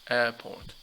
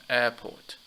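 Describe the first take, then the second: Both takes have the same delivery.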